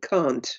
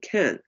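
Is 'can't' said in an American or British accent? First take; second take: British; American. First: It is said in a British accent. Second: It is said in an American accent. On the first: "This is in English. It's can and can't" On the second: "But in American, it's can and can"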